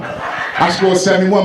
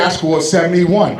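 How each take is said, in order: First: Indignant repeat. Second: Indignant. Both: Retold or imitated. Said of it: "He said".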